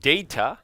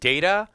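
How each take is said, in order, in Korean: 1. 영국 억양으로 발음됩니다. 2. 미국 억양으로 발음됩니다. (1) "영국 발음은" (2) "미국 발음은"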